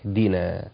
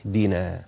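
Both takes have the same delivery.

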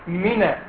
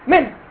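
First: The final n is followed by a short a. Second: The final n has no vowel after it. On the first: "لكن هي بالفعل فتح" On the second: "من هي نون ساكنه صح؟"

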